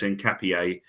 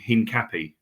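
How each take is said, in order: First: The name is said with a native-sounding ending. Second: The name is said in an anglicized way. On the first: The speaker calls it right. "I just heard someone say it's Hincapié" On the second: The speaker calls it wrong. "me and you would have gone Hincapi"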